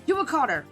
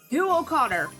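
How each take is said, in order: First: The name is yelled at a faster pace. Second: The name is yelled at a slower pace.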